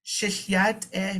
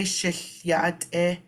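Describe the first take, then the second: First: Shihyat e repeated a bit quicker, falling at the end; Navajo pronunciation. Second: Shihyat e said slowly, each syllable clear; Navajo pronunciation. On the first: Teacher repeating the Navajo phrase for students. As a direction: repeat shihyat e once more, clear and falling. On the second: Teacher modelling the Navajo phrase for the class. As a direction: draw out Shihyat e slowly for learners. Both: Shown as a demonstration. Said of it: "when you say".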